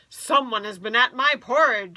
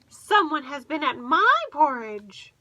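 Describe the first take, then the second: First: It is said in a deep, gruff voice. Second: It is said in a medium voice.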